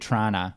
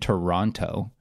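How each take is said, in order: First: It is said in a Toronto accent. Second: It is said in an American accent.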